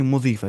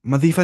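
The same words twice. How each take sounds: First: मुदीफ़ा with a "u" in the first syllable; मुदीफ़ा, first vowel "u" instead of "a"; corrected vowel. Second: मदीफ़ा with an "a" in the first syllable; मदीफ़ा, first vowel "a" instead of "u"; wrong vowel. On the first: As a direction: say मुदीफ़ा opening on "mu". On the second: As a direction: say मदीफ़ा opening on "ma". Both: Shown as a demonstration. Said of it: "मदीफ़ा नहीं, मुदीफ़ा".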